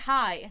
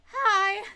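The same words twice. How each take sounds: First: It is said in a normal voice. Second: It is said in a high, screechy voice.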